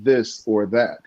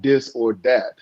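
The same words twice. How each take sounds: First: The words begin with a th sound. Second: The words begin with a d sound. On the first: The speaker calls it right. "It's this or that" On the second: The speaker calls it wrong. "T H's don't have a D in them. It's not this or that"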